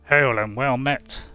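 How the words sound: The voice is pitched low and deep. "the first, the lowest one A"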